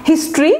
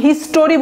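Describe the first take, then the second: First: হিস্ট্রি in two syllables, "his-tri"; no vowel between t and r in হিস্ট্রি; correct pronunciation. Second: হিস্টোরি in three syllables, "his-to-ri"; mispronunciation. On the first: Teacher models the correct word, হিস্ট্রি as compact "his-tri". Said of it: "উচ্চারণটা হচ্ছে একদমই আলাদা". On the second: Teacher shows what not to say, হিস্টোরি with extra "o". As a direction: put a full "to" into হিস্টোরি. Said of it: "হিস্টোরি বলবেন না". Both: Shown as a demonstration.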